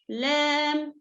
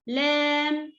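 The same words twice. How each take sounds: First: The l sounds light, tongue flat. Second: The same.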